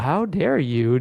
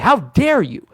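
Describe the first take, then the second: First: It sounds silly and cartoonish, not threatening. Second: It sounds intense and angry, with clear enunciation. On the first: The listener will not take it seriously. The speaker calls it wrong. "like in this tone, you're just going to laugh at me" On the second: The listener feels the force of the attack. The speaker calls it right. "I get really intense and I enunciate that word"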